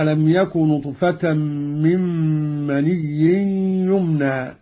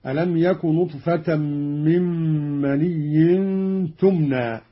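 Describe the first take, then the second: First: "يمنى" begun with a y sound, "yumna"; measured recitation saying "يمنى" as yumna. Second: "تمنى" begun with a t sound, "tumna"; measured recitation saying "تمنى" as tumna. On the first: Teacher reads the verse before Qalun's variant, "يمنى" with initial y. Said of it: "قرأ قالون بالتاء على التأنيث". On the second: Teacher demonstrates Qalun's feminine form, "تمنى" with initial t. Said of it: "قرأ قالون بالتاء على التأنيث هكذا". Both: Shown as a demonstration.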